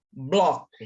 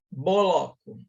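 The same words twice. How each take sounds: First: "bloco" with B and L as one slow onset; correct pronunciation. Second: "boloco" with a vowel breaking up B and L; wrong pronunciation. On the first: ("bloco" dito devagar e junto) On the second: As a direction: stretch it into "bo-lo-co". ("boloco" com vogal extra) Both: Shown as a demonstration. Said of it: "Viu como é diferente?".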